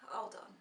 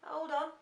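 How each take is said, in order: First: A soft sighing whispered hold on; sighed whisper. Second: Said in the usual way. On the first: Real, not acted. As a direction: sigh and whisper it. Sighs before answering husband.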